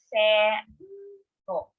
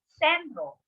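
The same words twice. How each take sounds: First: The word is said slowly. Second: The word is said at normal speed.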